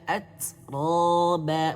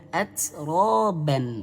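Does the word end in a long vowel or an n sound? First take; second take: long vowel; n sound. First: The word ends with a lengthened vowel. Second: The word ends with an n sound. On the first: The speaker calls it right. "tapi panjangkan" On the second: The speaker calls it wrong. "bukan atroban"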